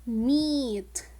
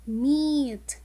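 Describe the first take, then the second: First: \"Meat\" spoken clearly with a long E; modelled word meat. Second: \"Meat\" repeated with emphasis, long E; repeated model word meat. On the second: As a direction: echo \"Meat\" firmly. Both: Shown as a demonstration. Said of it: "The word meat also has the long".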